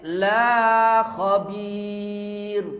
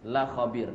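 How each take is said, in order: First: The vowel in 'la' is drawn out long. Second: The vowel in 'la' is short. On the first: The speaker calls it wrong. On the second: The speaker calls it right.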